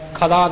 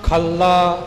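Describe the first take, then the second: First: The l sound is single and short. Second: The l sound is doubled and held tightly. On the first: The speaker calls it wrong. "ਖਲਾ ਨਹੀਂ ਬੋਲਣਾ" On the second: The speaker calls it right. "ਇਹ ਪਾਠ ਕੱਸ ਕੇ ਥੋੜ੍ਹਾ ਜਿਹਾ ਅਦਕ ਲਾ ਕੇ ਹੋਵੇਗਾ"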